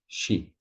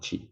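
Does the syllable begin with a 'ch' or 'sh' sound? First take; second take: sh; ch. First: The syllable begins with a soft sh sound. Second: The syllable begins with a hard ch sound. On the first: The speaker calls it right. "So she" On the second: The speaker calls it wrong. "not chi"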